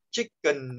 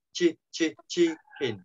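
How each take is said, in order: First: "chicken" with a weak uh second vowel, "chick-kun"; Vietnamese habitual pronunciation. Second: "chicken" broken down, "chi-, chi-, chee-keen"; two i sounds. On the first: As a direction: say "chicken" Vietnamese-style as "chích-cần". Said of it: "bình thường mình hay đọc là". ("chicken" đọc kiểu Việt, âm sau thành "cần") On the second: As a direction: say "chicken" with i in both syllables. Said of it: "hai âm y này". ("chicken" đọc rõ hai âm i, "chi-kin") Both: Shown as a demonstration.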